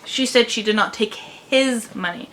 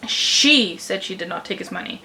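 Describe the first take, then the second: First: The stress is on the word his. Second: The stress is on the first word, she. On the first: She might have taken someone else's money. "but she might have taken someone else's money" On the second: She, not someone else, was the one who said it. "which means she said it, not someone else"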